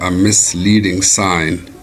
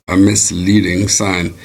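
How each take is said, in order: The two takes are said the same way.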